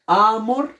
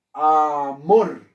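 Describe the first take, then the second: First: "amor" as AAH-mor, the A high and drawn out; wrong first-syllable stress. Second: "amor" as a-MOR, weight on the final syllable; stress on last syllable. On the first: Teacher showing what sounds bad, "amor" stressed on a high first syllable. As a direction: lean hard on the A of "amor". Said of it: "Eso suena feo". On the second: Teacher showing the right stress, "amor" with force on MOR. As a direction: hit the MOR of "amor", falling at the end. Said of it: "Ah, claro, yo digo". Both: Shown as a demonstration.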